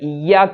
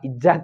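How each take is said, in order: First: The middle consonant is a doubled y sound. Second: The middle consonant is a doubled j sound. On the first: The speaker calls it right. "ഇയ്യാക്ക എന്ന്" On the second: The speaker calls it wrong. "ഇജ്ജാക്ക അല്ല"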